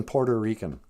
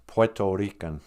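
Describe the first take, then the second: First: "Puerto" said as "Porter"; Minnesota pronunciation. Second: "Puerto" said with no R before the T; standard pronunciation. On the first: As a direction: turn "Puerto" into "por-tuh", Minnesota style. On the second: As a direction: say "Puerto" as "pweh-toh", ending on a full O. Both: Shown as a demonstration. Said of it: "as we call it in Minnesota".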